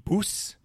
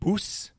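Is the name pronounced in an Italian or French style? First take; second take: French; French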